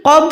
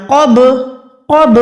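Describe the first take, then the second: First: क़ब closed dead on the b, no bounce; no qalqalah. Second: क़ब with the final b bouncing open; qalqalah. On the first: Teacher showing what to avoid, क़ब without qalqalah. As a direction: shut the lips on क़ब without any echo. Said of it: "क़ब नहीं पढ़ना". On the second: Teacher showing the right way, qalqalah bounce on क़ब. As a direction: release the ब of क़ब in a short echo. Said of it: "बा को भी लर्जिश दे". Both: Shown as a demonstration.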